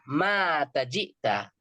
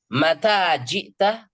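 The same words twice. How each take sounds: First: The first vowel is long. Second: The first vowel is short. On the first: It says that someone died. The speaker calls it wrong. "Jangan dibaca mata jita. Mata itu mati dong" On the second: It asks when someone arrived. The speaker calls it right. "kapan kamu datang?"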